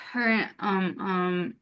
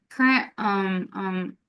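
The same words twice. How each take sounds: The two takes are said the same way.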